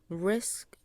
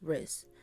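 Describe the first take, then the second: First: The word ends with a full SK cluster. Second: The word ends with only an S sound.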